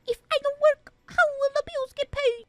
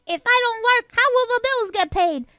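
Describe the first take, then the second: First: High, exaggerated copy of her whine; mocking imitation. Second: Said in the usual way. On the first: Dad mocking his daughter's complaint, high mimicking whine. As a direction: parrot her line back to mock her. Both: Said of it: "Are you making fun of me?".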